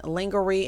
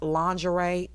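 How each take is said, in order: First: Lingerie said as "linger-ee"; deliberate mispronunciation. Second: Lingerie said as "lawn-juh-ray"; standard pronunciation. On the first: Host being funny about the word, lingerie mispronounced "linger-ee". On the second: Host showing commenters she knows the word, lingerie as "lawn-juh-ray". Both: Shown as a demonstration. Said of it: "know it's pronounced lingerie".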